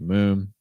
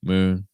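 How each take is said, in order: No difference in how they are said.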